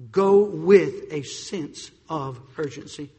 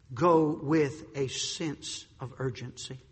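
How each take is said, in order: First: Slow and louder, punching "Go". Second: Slow and quiet, each word weighed; slow, soft. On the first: Preacher raising the call to urgency. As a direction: hit "Go" harder the second time. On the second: Preacher quietly pressing the point. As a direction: say it low and slow. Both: Shown as a demonstration. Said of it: "repeated with contrast".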